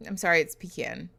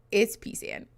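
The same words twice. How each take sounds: First: "pecan" said as pih-KAN, stress on the second syllable; pi-KAHN pronunciation. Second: "pecan" said as PEE-san, stress on the first syllable; PEE-can pronunciation. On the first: Streamer naming her own way, pih-KAN. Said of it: "Aaron and I call it pecan". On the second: Streamer insisting to chat it's right, PEE-san. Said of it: "That's the right pronunciation". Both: Shown as a demonstration.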